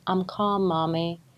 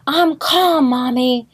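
First: It is said calmly and quietly. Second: It is yelled loudly.

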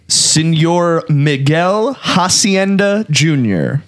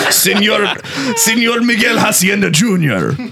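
First: The name is said in a plain, unaccented way. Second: The name is said with a playful Spanish accent.

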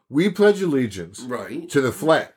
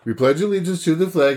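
First: It is said slowly and deliberately, like a sentence. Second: It is said quickly in a singsong rote rhythm. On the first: The speaker thinks about what the words mean. "you say the words slowly, like say the words as though they were a sentence" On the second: The words are recited without thinking about them. "You do it by the sound"

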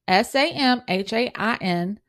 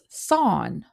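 First: It is said as two syllables, sam-hane. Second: It is said as one syllable, like sown. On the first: "is how Americans pronounce it" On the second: "in the British pronunciation, it's son"

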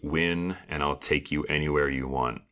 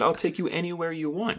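First: It is said in a sultry, sexy voice. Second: It is said in a plain, normal voice.

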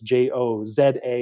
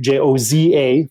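First: The letter Z is said as zed. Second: The letter Z is said as zee.

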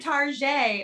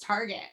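First: The name is said with a French-sounding ending. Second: The name is said in plain English. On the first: It sounds posh and overly proper. The speaker calls it wrong. "trying to make it sound like way too proper" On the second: It is the ordinary everyday way. The speaker calls it right. "girl, it's Target"

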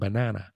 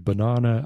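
First: It is said with an American pronunciation. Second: It is said with a British pronunciation. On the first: "Americans say tomato and banana" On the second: "British people say banana"

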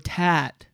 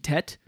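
First: The vowel is stretched out and long. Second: The vowel is short and clipped. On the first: The speaker calls it right. "but you go tat. You stretch it out" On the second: The speaker calls it wrong. "If there was no accent, it'd be tet"

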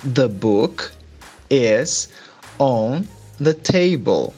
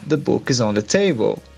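First: It is said more slowly. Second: It is said at normal, faster speed.

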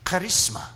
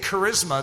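First: It is said with a Greek pronunciation. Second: It is said with an English pronunciation. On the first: It is the original scriptural word. "do you notice how I'm pronouncing the charisma" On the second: It suggests a magazine or a movement. "If I say charisma, then some of you immediately think of a magazine"

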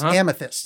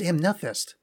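First: The word is said without an added n sound. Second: The word is said with an added n sound. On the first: The speaker calls it right. "And it's amethyst" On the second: The speaker calls it wrong. "I'm throwing an N in there"

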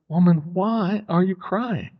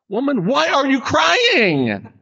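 First: It sounds gentle and sympathetic. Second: It sounds sharp and accusatory.

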